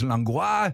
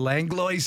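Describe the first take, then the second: First: The name has a French pronunciation. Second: The name has an English pronunciation. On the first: This is how the family name was originally said. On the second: This is how the family says the name today.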